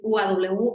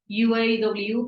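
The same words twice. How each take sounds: First: The letters are named with Spanish letter names. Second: The letters are named with English letter names. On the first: "yo soy muy mexicana, así que voy a decir" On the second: "sé que se pronuncia"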